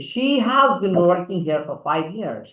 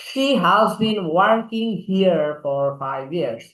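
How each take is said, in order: First: "She has been working here for five years" slow, r sounds dropped; non-rhotic, unhurried delivery; silent r. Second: Very slow "She has been working here for five years", r dropped; polished, non-rhotic demo line; smart delivery. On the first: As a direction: soften every r in "here", "for", "years". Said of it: "আরটাকে silent ভাবে বলা". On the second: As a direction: drawl it with silent r in "here", "years". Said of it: "একটু smart করে বলো". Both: Shown as a demonstration.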